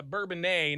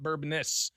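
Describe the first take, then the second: First: Bourbonnais said "bur-bun-NAY"; correct pronunciation. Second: Bourbonnais said "bur-BONE-iss"; wrong pronunciation. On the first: Host giving the town name, French-style pronunciation. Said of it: "it's, uh, Bourbonnais". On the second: Host showing what not to say, mispronunciation. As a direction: Bourbonnais ending in a sounded "niss". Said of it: "not Bourbonnais". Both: Shown as a demonstration.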